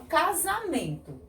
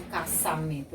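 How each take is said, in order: First: "casamento" with a voiced z; pronúncia com Z. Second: "caçamento" with an unvoiced s; pronúncia com S. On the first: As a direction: say "casamento" as ca-za-mento. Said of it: "eu falo casamento". ("casamento" com som de Z) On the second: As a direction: say "caçamento" as ca-ssa-mento. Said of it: "eu não falo caçamento". ("caçamento" com som de S) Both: Shown as a demonstration.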